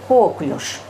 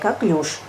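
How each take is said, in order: First: The stress is on the first syllable. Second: The stress is on the second syllable. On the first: It is the doctors' professional usage. The speaker calls it wrong. "Мы привыкли к другому ударению" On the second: It is the standard usage. The speaker calls it right. "ударение правильное"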